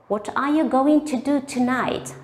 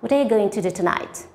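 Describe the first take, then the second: First: The words are said separately. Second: The words are linked smoothly together.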